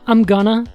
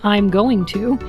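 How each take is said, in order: First: Going to is reduced to a quick gonna. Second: Going to is said fully, every sound clear. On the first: "How do you pronounce it?" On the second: "you write it down"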